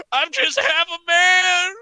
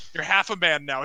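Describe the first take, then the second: First: Very high, loud, slow wail; hammed-up howl of self-pity; anguished wail. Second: Said in the usual way. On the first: Maimed wrestler laments his lost limbs, wailing. Injured man laments loudly.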